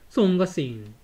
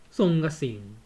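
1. 最初の音節は、1つの'song'という音です。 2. 最初の音節は、1つの'song'という音です。

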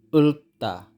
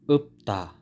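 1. Ang gitnang katinig ay tunog l. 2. Ang gitnang katinig ay tunog p. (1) "Hindi ulta" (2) "Dapat upta"

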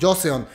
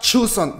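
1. El nombre empieza con una 'j' suave. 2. El nombre empieza con un sonido 'ch'. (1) "yo lo pronunciaba como Joseon" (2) "se pronuncia Chuseon"

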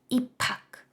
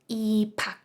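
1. Звук h зливається в один аспірований p. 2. Звук h зливається в один аспірований p.

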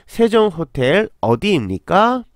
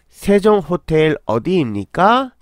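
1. 韓国語の発音で言われています。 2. 韓国語の発音で言われています。

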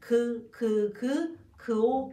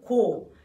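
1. 자음과 모음을 따로 소리 냅니다. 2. 자음과 모음을 빠르게 붙여서 소리 냅니다.

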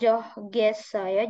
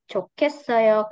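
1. Konsonan tengahnya bunyi g polos. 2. Konsonan tengahnya bunyi k aspirasi. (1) "bacanya bukan johgesayo" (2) "tapi cokesayo"

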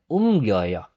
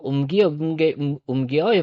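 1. Ang stem at ending ay pinagsasama sa isang mabilis na tunog. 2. Ang stem at ending ay binibigkas na magkahiwalay na bahagi.

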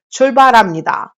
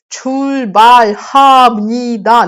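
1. Звук h посередині слова пропускається. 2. Твердий звук h вимовляється всередині слова. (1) "Кажуть чульбарамніда" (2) "Немає х такої твердої тут. Чульбальхамніда. Ніхто не каже"

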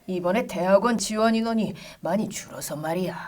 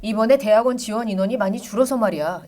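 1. 나이 들고 느린 목소리예요, 숨이 더 많이 들어가요. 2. 젊고 빠른 목소리예요, 숨이 거의 안 들어가요. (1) "50대, 60대로 가려면은" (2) "이게 이제 30대죠"

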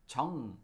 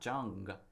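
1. 받침 ng은 g 없이 깔끔하게 끝나요. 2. 받침 ng 뒤에 강한 g가 이어져요. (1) "This is 정" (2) "So not 정 or 멍"

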